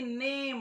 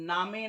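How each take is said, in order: First: It is said as one syllable with 'ay'. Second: It is said as two syllables with 'ah'. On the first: The speaker calls it right. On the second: The speaker calls it wrong.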